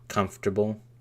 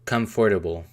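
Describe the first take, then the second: First: The middle syllables are squeezed into fewer sounds. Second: Every syllable is said as it is spelled. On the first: "that's how it feels like everyone pronounces it" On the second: "If I was to pronounce that phonetically"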